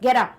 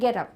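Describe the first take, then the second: First: It is said sharply, like an order. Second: It is said softly and kindly. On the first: It is a command that must be obeyed. The speaker calls it wrong. "Order नहीं दे रही थी कि हे get up, ऐसा नहीं था" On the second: It is a friendly suggestion. The speaker calls it right. "ऐसा था कि गेट अप, यानी कि बड़े प्यार से"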